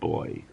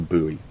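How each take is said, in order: First: It is said with a British pronunciation. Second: It is said with an American pronunciation. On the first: "What is the British pronunciation?" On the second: "I will use the American pronunciation"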